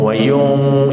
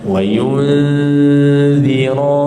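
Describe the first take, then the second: First: The nasal is made at the back, like 'ng'. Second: The nasal leads into a tongue-tip 'dh' sound. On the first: The speaker calls it wrong. "ramai yang bunyi wayung" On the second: The speaker calls it right. "Lidah standby dekat zal"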